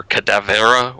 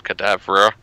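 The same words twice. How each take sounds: First: "Cadavera" in four syllables, with an extra vowel before "ra"; alternative pronunciation. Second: "Cadavra" in three syllables, no vowel before "ra"; first pronunciation. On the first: Host unsure of a film title, offering "Cadavera" in four syllables. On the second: Host naming a parody film, "Cadavra" said in three syllables. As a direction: say "Cadavra" with the ending run together as "-vra". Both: Shown as a demonstration. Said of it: "or however they pronounce it".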